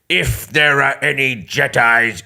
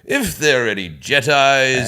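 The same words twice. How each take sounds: First: It is said in a menacing, threatening tone. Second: It is said in a posh, polite English manner. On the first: "he did it like that" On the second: "I did it like a posh English sort of like"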